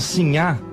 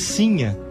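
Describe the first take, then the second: First: The stress is on the last syllable. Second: The stress is on the first syllable. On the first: The woman belongs to the wealthy class. "como corruptela de senhora, era a mulher de classe abastada" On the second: The woman is poor, of the common people. "com o acento na primeira sílaba"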